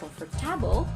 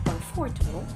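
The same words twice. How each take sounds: First: The stress is on the third syllable. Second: The stress is on the second syllable. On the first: "not on the third" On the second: "not on the second"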